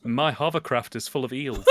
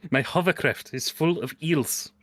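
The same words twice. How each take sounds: First: Quoting through laughter. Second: Slow deliberate repeat. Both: Pretend. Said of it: "Your hovercraft?".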